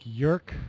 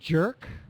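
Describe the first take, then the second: First: The word begins with a y sound. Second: The word begins with a j sound. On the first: The speaker calls it wrong. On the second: The speaker calls it right.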